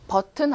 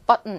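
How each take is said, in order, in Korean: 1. 이 단어는 한국어 외래어 소리로 말해요. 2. 이 단어는 영어 소리로 말해요. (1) "발음이 버튼 아니라" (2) "button 이렇게 제시가 됐어요"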